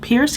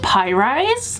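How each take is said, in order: First: It is said as one syllable, like Pierce. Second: It is said as two syllables, pie rise. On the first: The speaker calls it wrong. "I thought it said Pierce thick because it was one word" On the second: The speaker calls it right. "is that just pie rise?"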